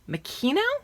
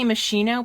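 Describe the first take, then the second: First: The middle consonant is a k sound. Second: The middle consonant is not a k sound. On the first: "you have to put a K in it" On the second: "I used to say"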